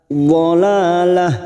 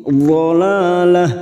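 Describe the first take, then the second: Both takes have the same delivery.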